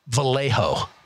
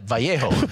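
First: Vallejo is said with an English pronunciation. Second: Vallejo is said with a Spanish pronunciation. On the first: "if you're a Bay Area native, you know to call it Vallejo" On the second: "in Spanish, you would pronounce that Vallejo"

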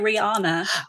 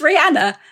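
First: The name is said in the American way. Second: The name is said in the non-American way. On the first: The speaker calls it wrong. "Americans say Rihanna" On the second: The speaker calls it right. "It's Rihanna"

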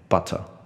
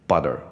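First: The T is crisp and the R is light. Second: The T sounds like a D, with an R. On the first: "英式应该要念butter" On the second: "美式应该要念butter"

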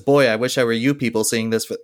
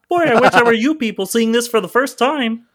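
First: It is said in the speaker's normal voice. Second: It is said in a Kermit the Frog voice.

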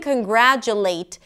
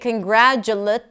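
First: The last syllable has a full vowel. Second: The last syllable is reduced to a schwa. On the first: The speaker calls it right. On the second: The speaker calls it wrong.

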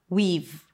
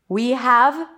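First: Have is reduced to a v sound. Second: Have is pronounced in full as a separate word.

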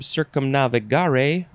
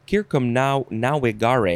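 First: The v is said as a v sound. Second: The v is said as a w sound.

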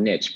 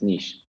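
First: It is said the American way. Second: It is said the Canadian/European way.

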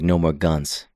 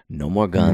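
First: The line is delivered in a flat monotone. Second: The line is delivered in a cool, expressive way. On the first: The speaker calls it wrong. "He's repeating it monotone" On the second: The speaker calls it right. "Viggo sounded cool when he said it"

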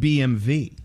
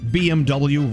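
First: The last letter is said as 'vee'. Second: The last letter is said as 'double-u'. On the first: The speaker calls it right. "They pronounce it BMV" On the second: The speaker calls it wrong. "we've been saying BMW wrong our entire lives"

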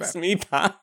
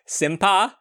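First: The name starts with the sounds 'smi'. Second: The name starts with the sounds 'sim'. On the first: The speaker calls it right. "Oh, Smipa" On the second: The speaker calls it wrong. "Am I saying that right?"

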